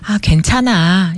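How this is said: It is said warmly, like a loving person.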